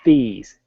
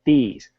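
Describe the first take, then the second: Both takes have the same delivery.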